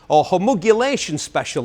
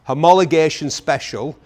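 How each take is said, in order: First: The word is said with a different, imitated pronunciation. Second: The word is said in the speaker's usual way.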